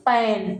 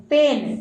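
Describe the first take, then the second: First: पैन said with an open "ae" vowel like pan; wrong vowel. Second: पेन said with a closed "e" vowel like pen; closed e in पेन, the right way; corrected vowel. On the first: Teacher says पैन with the wrong open vowel. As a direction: open flat ae in पैन, the slip before correcting. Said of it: "पैन नहीं साथियों". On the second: Teacher corrects himself, saying पेन with a closed e. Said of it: "पेन, ये हिंदी में हमने लिख दिया है". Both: Shown as a demonstration.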